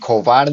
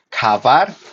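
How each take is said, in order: First: An o vowel is inserted between k and v. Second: An a vowel is inserted between k and v. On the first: "ni kovar" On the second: "ni kavar"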